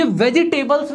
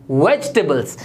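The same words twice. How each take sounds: First: वेजिटेबल्स in four syllables, "VE-ji-tay-buls"; wrong pronunciation. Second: वेजिटेबल्स as "VEJ-tuh-buls", lower; correct pronunciation. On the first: Teacher shows learners the mistake, वेजिटेबल्स fully spelt out. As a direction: sound the i and full "tay" in वेजिटेबल्स. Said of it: "ये वेजिटेबल्स नहीं होता". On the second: Teacher repeats for learners, वेजिटेबल्स said "vej-tuh-buls". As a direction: drop the i in वेजिटेबल्स. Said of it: "ये होता है". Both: Shown as a demonstration.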